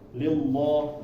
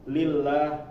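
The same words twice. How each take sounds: First: The L sound is heavy and thick. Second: The L sound is light and thin. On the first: The speaker calls it wrong. "dikiranya dibaca tebal" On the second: The speaker calls it right. "itu dibaca tipis"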